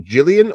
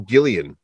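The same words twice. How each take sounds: First: Gillian with a soft J sound at the start. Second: Gillian with a hard G as in "gill". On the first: Host unsure of the actress's name, Gillian with a soft G. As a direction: say Gillian like "Jillian". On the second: Host offering the other reading of a name, Gillian with a hard G. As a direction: start Gillian with a hard "guh" sound. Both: Shown as a demonstration. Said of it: "I'm probably gonna get her name wrong".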